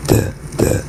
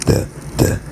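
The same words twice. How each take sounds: The two takes are said the same way.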